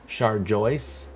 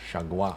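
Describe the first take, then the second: First: The name is said with an R sound. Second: The name is said without an R sound.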